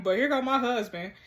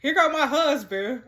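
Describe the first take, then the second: First: Said in the usual way. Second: Exclaimed with a lift and a push on "go"; mock exclaiming. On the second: Real, not acted. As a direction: announce the husband's arrival, half-laughing. Husband texts, exclaimed first.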